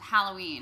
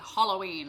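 First: The first vowel sounds like the one in pat. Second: The first vowel sounds like the one in hot. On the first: "I say it with the pat sound" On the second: "you almost go all the way to, like, hot pot of coffee"

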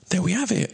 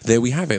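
First: It is said in a high-pitched voice. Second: It is said in his normal voice.

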